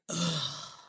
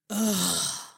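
First: The moan is low and quiet. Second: The moan is louder.

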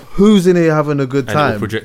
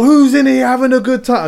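First: It is said calmly at normal volume. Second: It is shouted loudly with a raised voice. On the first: The microphone is loud enough that no straining is needed. "I'd just be like" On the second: The speaker has to strain to be heard over music. "I didn't need to be like"

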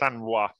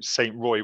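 First: The name is said with a French pronunciation. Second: The name is said with an English pronunciation. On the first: "I think it is Sanrois" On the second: "I'm a British man in France, so I'd call him Saint Roy"

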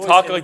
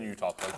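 First: The voice is at its normal pitch. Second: The voice is dropped much lower. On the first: "So you talk like this" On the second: "and then you talk like this"

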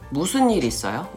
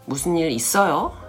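First: The stress is on 무슨, not 있어요. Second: The stress is on 있어요.

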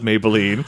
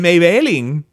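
First: It is run together as one single word. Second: It is split like a first and last name.

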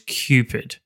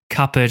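First: The name is said like the word cupid. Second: The name is said unlike the word cupid. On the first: The speaker calls it right. "it was Cupid" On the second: The speaker calls it wrong. "I think we said Cupid"

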